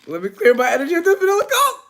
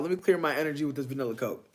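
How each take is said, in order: First: High, loud and quick, like a joyful cry; excited shout. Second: Said in the usual way. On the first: Real, not acted. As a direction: belt it out gleefully, going up at the end. Same line shouted up high.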